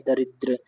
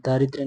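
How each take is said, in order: First: दरिद्र with short first a; correct vowel. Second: दारिद्र with long aa first; wrong vowel. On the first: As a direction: say da-ri-dra for दरिद्र. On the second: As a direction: say daa-ri-dra for दारिद्र. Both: Shown as a demonstration. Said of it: "दारिद्र नहीं".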